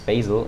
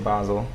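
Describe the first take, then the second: First: Basel is pronounced with an English pronunciation. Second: Basel is pronounced with a non-English pronunciation. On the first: "Do you pronounce it like this, Basel in English?" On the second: "Usually I say Basel"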